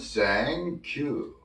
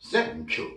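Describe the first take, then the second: First: It is said softly and smoothly. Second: It is said quickly. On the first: "부드럽게 하면" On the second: "빨리 하면"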